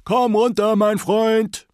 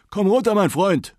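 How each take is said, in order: First: Even higher, loud repeated call; old man calling his dog down a second time, higher still; louder calling up into the sky. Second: High, loud call upward; old man calling his dog down from the moon sky. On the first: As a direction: call again, pushing the voice further up. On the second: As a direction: shout up to a dog far above. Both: Acted. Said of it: "rief er in die Luft hinauf".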